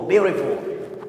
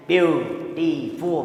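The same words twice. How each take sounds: First: Said in the usual way. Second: "beautiful" drawn out slowly, each syllable split; syllables pulled apart. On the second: Shown as a demonstration. Teacher showing class the syllable pauses, slow and split. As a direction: stretch "beautiful" into slow separate beats. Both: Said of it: "We pause when we read the word".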